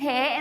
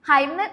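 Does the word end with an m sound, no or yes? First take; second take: no; yes. First: It is said 'he' with no final m sound. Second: It is said 'haim' with a final m sound. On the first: The speaker calls it right. "ശരിക്കും ഹേ എന്ന് തന്നെയാണ് pronounce ചെയ്യുക" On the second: The speaker calls it wrong. "ഹൈം നമ്മൾ pronounce ചെയ്യാറില്ല"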